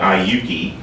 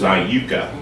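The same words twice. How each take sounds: First: It uses the local Southern Indiana pronunciation. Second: It uses the original pronunciation of the name. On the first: This is how people in the area say it. The speaker calls it wrong. "we mispronounce it, but we call it Iuka" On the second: This is what the place was really called. The speaker calls it right. "but it was Iuka"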